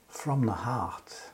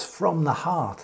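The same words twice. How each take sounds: First: Slow, soft, falling read of "from the heart"; slow quiet close. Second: "from the heart" lifted, stress on "from"; quoted key phrase. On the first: Preacher closing the reading, hushed and slow. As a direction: let "from the heart" fade out slowly and softly. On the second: Preacher repeating the key words to the congregation. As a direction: pick out "from the heart" with a light lift on "from". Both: Shown as a demonstration. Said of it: "Jesus ends up there with those words".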